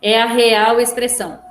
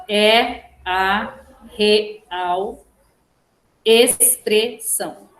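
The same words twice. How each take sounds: First: Said in the usual way. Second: "É a real expressão" in separate syllables with pauses. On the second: Shown as a demonstration. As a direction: dictate "É a real expressão" slowly, one syllable at a time.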